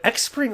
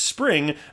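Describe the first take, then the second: First: The name starts with an 'ex' sound. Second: The name starts with an 's' sound. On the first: It is read from the letters without having heard it. The speaker calls it wrong. "that's the way everybody says says it before they they, they hear it um, properly said" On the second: It is said the intended way. The speaker calls it right. "it's pronounced spring"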